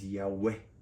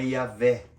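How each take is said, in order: First: The middle consonant is a W sound. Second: The middle consonant is a V sound. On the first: The speaker calls it right. "o som tinha som de W e não de V" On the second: The speaker calls it wrong. "não é Yahvé"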